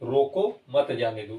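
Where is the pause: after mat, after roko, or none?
after roko. There is a pause after roko. Stop him, do not let him go. The speaker calls it right. "लगा है तो आपको रुकना है यहाँ पे अल्प समय के लिए, रोको, फिर आप बोलेंगे मत जाने दो"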